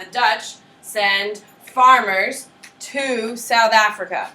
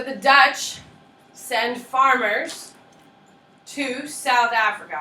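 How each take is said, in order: First: Very slow, drawn-out and louder; slower dictation. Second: Slow, spaced-out dictation pace. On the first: Teacher repeating the point slowly for note-takers. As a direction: stretch every word so they can write. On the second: Teacher slowing down so students copy notes. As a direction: spell it out slowly for note-taking. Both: Shown as a demonstration. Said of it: "I'd write that down".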